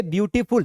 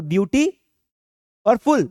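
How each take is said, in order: First: Said in the usual way. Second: beauty, pause, then फुल louder; split in two. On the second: Shown as a demonstration. (Beauty और फुल को दो टुकड़ों में बोलें) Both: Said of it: "दो बार में बोलना पड़ेगा".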